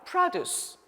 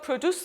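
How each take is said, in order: First: It is pronounced the way the noun is. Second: It is pronounced the way the verb is. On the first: It means farm products. "이게 명사일 때는 발음도 바뀌거든요" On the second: It means to make or generate something. "동사로 기억하시죠?"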